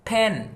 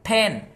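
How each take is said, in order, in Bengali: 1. p ধ্বনিটি বাতাসের ফুঁ দিয়ে উচ্চারণ করা হয়। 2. p ধ্বনিটি বাতাসের ফুঁ দিয়ে উচ্চারণ করা হয়।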